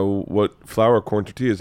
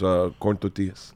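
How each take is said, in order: First: Said in the usual way. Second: Put-on low, soft Mexican-accented "tortillas". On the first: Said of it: "the lady said". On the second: Friend ordering corn tortillas from the lady, Mexican accent. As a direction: say "tortillas" with a Mexican Spanish pronunciation. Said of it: "With an accent".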